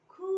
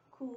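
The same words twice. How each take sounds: First: खू with a long held oo; long u vowel. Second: खू with a brief oo; short u vowel. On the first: Teacher drilling the kh series, long vowel in खू. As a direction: stretch the oo in खू. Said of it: "बड़ी ऊ की मात्रा". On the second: Teacher drilling the kh series, short vowel in खू. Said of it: "छोटी ऊ की". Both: Shown as a demonstration.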